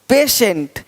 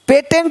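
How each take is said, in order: First: The middle consonant is a 'sh' sound. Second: The middle consonant is a 't' sound. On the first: The speaker calls it right. "श पेशेंट" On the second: The speaker calls it wrong. "नहीं"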